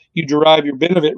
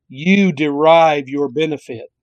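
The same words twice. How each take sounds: First: Said in the usual way. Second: Slow, deliberate reading of the verse. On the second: Shown as a demonstration. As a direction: draw the words out slowly. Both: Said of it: "I'll read it slowly".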